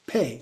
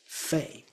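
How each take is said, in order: First: The word begins with a p sound. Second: The word begins with an f sound. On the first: The speaker calls it right. "but it's more like pay" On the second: The speaker calls it wrong. "It's certainly not fei"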